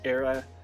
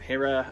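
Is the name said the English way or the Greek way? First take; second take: Greek; English. First: The name has the Greek dialect pronunciation. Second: The name has the usual English pronunciation. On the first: "I go Era" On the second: "instead of saying Hera"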